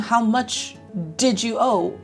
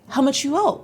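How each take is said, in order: First: The word did is pronounced in full. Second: Did shrinks to a j sound after much. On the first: "Instead of saying" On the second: "we just say"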